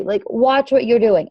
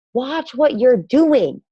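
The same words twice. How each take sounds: First: Slower again, each word stressed; heavy emphatic repeat; repeated emphatic warning. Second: Slow, stressed watch what you're doing; stern slow warning; emphatic warning. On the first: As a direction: drive the warning home. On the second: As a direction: lean hard on every word. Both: Shown as a demonstration. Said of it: "I can't say that with, like, any more emphasis".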